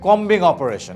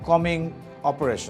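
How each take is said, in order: First: The b sound is pronounced. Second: The b sound is left silent. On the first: The speaker calls it wrong. "not combing operation" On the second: The speaker calls it right. "It is silent B"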